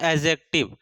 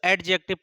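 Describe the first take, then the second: First: The d sound is left silent. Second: The d sound is clearly pronounced. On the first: The speaker calls it right. "डी हमारा इसमें क्या होता है, silent होता है" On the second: The speaker calls it wrong. "लोग इसको एडजेक्टिव पढ़ते हैं, बट एडजेक्टिव नहीं होता है"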